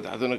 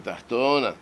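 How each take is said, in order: First: The stress is on the final syllable. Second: The stress is on the penultimate syllable. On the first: The speaker calls it wrong. "לא כתוב" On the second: The speaker calls it right. "המילה מלעיל"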